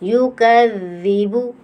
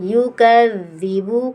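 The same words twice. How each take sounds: No difference in how they are said.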